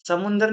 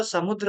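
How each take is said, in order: First: समुंदर with a nasal and full र; the spoken समुंदर; wrong form. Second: समुद्र with द्र cluster; correct form. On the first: Teacher marks the casual wrong form समुंदर. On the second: Teacher gives the correct समुद्र. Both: Shown as a demonstration. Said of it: "समुंदर नहीं होता".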